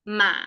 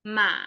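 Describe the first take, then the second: Both takes have the same delivery.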